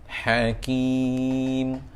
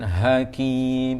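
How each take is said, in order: First: The h comes from the middle of the throat. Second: The h comes from the base of the throat. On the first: The speaker calls it right. "huruf ha, ha tengah kerongkong" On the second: The speaker calls it wrong. "Jangan hakim, itu jadi ha pangkal kerongkong"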